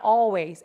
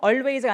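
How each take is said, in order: First: "always" as AW-ways, drawn-out AW; silent L. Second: "always" as OL-ways with a clear L; pronounced L. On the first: Teacher correcting students' pronunciation, silent L. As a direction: drop the L from "always". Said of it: "L 발음 없어져요". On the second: Teacher showing students the wrong way, pronounced L. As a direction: sound the L in "always". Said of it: "always가 아니라 always". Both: Shown as a demonstration.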